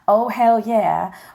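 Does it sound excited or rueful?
excited. It sounds excited and triumphant.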